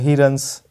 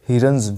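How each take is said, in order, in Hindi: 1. Runs का अंत फुफकार वाली s आवाज़ से होता है। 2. Runs का अंत भनभनाती z आवाज़ से होता है। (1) "तो ये गलत है दोस्तों, बिल्कुल गलत है" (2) "क्योंकि हमारा ऐसा रूल कहता है"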